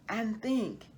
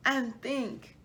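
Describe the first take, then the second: No difference in how they are said.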